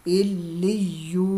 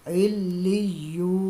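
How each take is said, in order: The two takes are said the same way.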